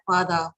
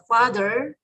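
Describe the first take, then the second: First: It is said with an Australian accent. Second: It is said with an American accent.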